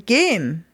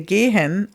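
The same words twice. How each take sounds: First: The final e sound is dropped completely. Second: The final e sound is weak but still heard. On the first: "or maybe sometimes not at all" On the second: "We don't say this last E before the N very much"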